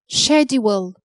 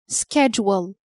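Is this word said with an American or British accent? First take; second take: British; American. First: It is said with a British accent. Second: It is said with an American accent.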